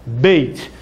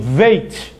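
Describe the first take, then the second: First: The word begins with a B sound. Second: The word begins with a V sound. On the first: The letter has a dot inside it. "ele tem som de B" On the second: The letter has no dot inside it. "ele fica com um som de V"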